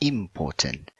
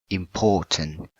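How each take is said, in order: First: The stress is not on the second syllable. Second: The stress is on the second syllable. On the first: The speaker calls it wrong. "not important" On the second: The speaker calls it right. "you have to put the stress word in the port or the second syllable. So you pronounce important"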